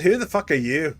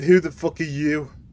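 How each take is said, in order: First: It is said in an Australian accent. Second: It is said in the speaker's plain accent.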